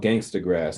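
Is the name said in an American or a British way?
American. The name is said in an American way. The speaker calls it right. "We're called Gangstagrass"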